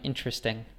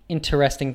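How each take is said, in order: First: The word is shortened to three syllables. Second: The word is said in full with four syllables.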